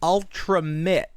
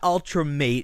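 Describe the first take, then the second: First: The last syllable sounds like 'mit'. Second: The last syllable sounds like 'mate'. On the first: The speaker calls it right. "it's Ultramit" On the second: The speaker calls it wrong. "it's not Ultramate"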